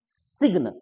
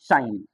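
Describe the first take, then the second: First: A hard g sound is heard before the n. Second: No g sound is heard; it rhymes with line. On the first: The speaker calls it wrong. "जबकि हम लोग पढ़ते हैं सिग्न" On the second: The speaker calls it right. "जी silent हो गया"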